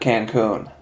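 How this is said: The name is pronounced in an English way. "and not Cancun?"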